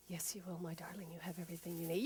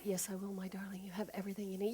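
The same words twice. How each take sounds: First: Much softer, tender reassurance; quiet loving inner voice; soft cheerleader voice. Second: Tender whisper; soft loving whisper; whispered reassurance. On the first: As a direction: comfort them gently. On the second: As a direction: breathe it like a secret. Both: Acted. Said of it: "a softer, quieter voice".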